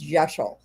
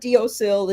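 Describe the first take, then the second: First: It begins with a j sound, as in Gaelic. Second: It begins with a d sound, read as spelled. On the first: The speaker calls it right. "it's Jeshel" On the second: The speaker calls it wrong. "it's not Deosil"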